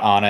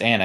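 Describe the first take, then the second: First: "Anna" with a broad open "ah", AH-nuh; wrong Anna. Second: "Anna" with a short front A, as in "can"; corrected Anna. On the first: Director rejects a wrong take, "Anna" said AH-nuh. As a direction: say "Anna" as AH-nuh, first vowel as in "father". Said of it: "No, it's not Anna". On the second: Director corrects the actors, "Anna" said AN-uh. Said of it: "somebody would correct them". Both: Shown as a demonstration.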